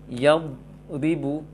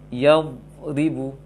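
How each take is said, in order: Both takes have the same delivery.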